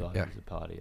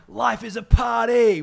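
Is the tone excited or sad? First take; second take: sad; excited. First: The voice is low, flat and sad. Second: The voice is high, lively and excited. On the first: "try saying it with a sad voice" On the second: "my voice was of a higher level and I was dancing around with a big smile on my face"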